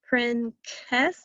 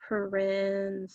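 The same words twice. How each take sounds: First: The c is said as a hard k sound. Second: The c is said as a soft s sound. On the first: The speaker calls it wrong. "does that sound right? Doesn't sound right" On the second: The speaker calls it right. "try it the other way with this sound"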